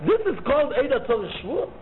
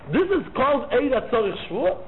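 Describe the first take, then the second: No difference in how they are said.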